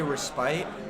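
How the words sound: The word is said with a British pronunciation. The speaker calls it wrong. "the Brits say respite"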